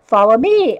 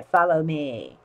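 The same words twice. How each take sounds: First: Sly fox. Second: Low, quiet sly whisper; sly sinister fox. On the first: A narrator's reading. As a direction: call them along. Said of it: "first take". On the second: Shown as a demonstration. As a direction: lure them in slyly. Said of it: "repeated low after laugh".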